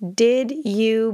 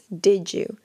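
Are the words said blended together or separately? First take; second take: separately; blended. First: The two words are said separately and clearly. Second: The two words blend into one reduced sound. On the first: "very rarely will you hear a native say, did you" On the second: "what you'll normally hear is something like"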